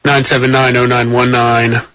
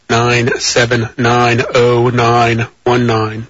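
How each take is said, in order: First: Said in the usual way. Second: Very slow, every digit drawn out; deliberately slow. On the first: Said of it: "think I'm speaking too quickly". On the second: Shown as a demonstration. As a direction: read the number slowly for listeners who can't keep up. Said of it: "for those of you who think I'm speaking too quickly".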